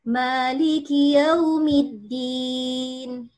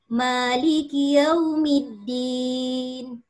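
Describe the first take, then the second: Both takes have the same delivery.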